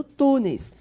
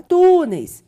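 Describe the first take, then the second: First: Said in the usual way. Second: First syllable of "túneis" loud and drawn out; stress on TÚ. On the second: Shown as a demonstration. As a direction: hit the TÚ in "túneis". (ênfase forte no TÚ de "túneis") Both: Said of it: "sílaba tônica é a penúltima sílaba".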